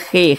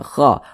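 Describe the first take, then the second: First: The vowel is a plain e sound. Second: The vowel is a plain a sound. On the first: "jangan dibaca khe" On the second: "jangan kha"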